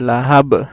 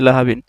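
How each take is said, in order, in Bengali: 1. শব্দটি ঝাঁকুনি দেওয়া 'b' ধ্বনিতে থেমে যায়। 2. শব্দটি পূর্ণ 'bin' দিয়ে শেষ হয়। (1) "কলকলা হরফে বায়ে জজম দিয়ে পড়তে হবে" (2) "যদি সাধারণভাবে পড়ি লাহাবিন"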